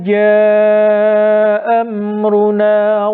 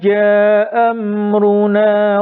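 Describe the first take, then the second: First: The vowel in jaa is held two beats. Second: The vowel in jaa is short, one beat. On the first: "ini janya dibaca tawassut" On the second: "Berarti janya dibaca pendek"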